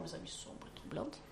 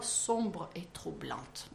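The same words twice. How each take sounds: First: Teasing whisper. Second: Slow, dwelling on sombre, softer; dark, troubled voice. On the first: Host whispers the phrase to her co-hosts, teasing. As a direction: whisper sombre et troublante, much softer. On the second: Host reads the book's phrase, slow and dark. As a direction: let sombre et troublante sink slowly. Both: Shown as a demonstration. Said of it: "sa voix sombre et troublante".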